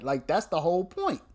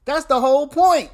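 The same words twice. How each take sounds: First: Said in the usual way. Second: Higher and louder, driving it home; emphatic loud repeat. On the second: Real, not acted. Commentator repeating his point to viewers, loud and emphatic. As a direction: hammer the point a second time.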